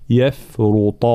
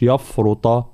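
First: Slow يفرط with light ya and fa; thin ya and fa. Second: يفرط with a thick ya and fa; wrong heavy ya. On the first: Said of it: "هكذا". (يفرط بترقيق الياء ببطء) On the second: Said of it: "ما نقولش يفرط". (يفرط بتفخيم الياء خطأً) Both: Shown as a demonstration.

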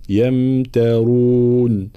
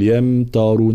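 First: يمترون with a thin ت, slowly; light ta. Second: يمترون with a thick, emphatic ت; heavy ta, wrong. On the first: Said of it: "التاء هنا مرققة". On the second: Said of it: "فلا نقول". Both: Shown as a demonstration.

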